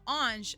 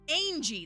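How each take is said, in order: First: It ends with a soft 'zh' sound. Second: It ends with an 'ee' vowel. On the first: The speaker calls it right. "a little more je sound" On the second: The speaker calls it wrong. "that's how they said it"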